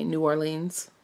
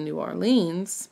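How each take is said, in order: First: Said in the usual way. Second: "New Orleans" run together as nor-lenz; "New Orleans" said the local way, nor-lenz. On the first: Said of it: "like I say". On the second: Shown as a demonstration. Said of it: "people that live in New Orleans probably say".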